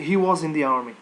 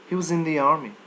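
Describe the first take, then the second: First: The word was is said in full. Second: The word was is swallowed and reduced. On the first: The speaker calls it wrong. "Don't say" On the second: The speaker calls it right. "Say he was in the army. You, you swallow"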